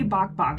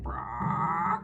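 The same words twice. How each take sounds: First: Said in the usual way. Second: One drawn-out chicken squawk; chicken imitation. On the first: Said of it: "She won't say". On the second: Mom showing how her daughter does chicken sounds, chicken squawk. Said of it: "like a person trying to imitate a chicken".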